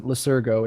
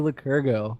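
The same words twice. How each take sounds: First: Lycurgo with an S sound, "luh-SUR-go"; soft C pronunciation. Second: Lycurgo with a K sound, "luh-KUR-go"; hard C pronunciation. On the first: Host checks the name Lycurgo, soft S sound. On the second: Host thanks guest Lycurgo, hard K in the name. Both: Real, not acted. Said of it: "Excuse me if I'm mispronouncing it".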